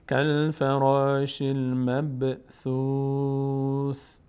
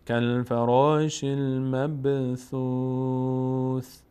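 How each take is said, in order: Both takes have the same delivery.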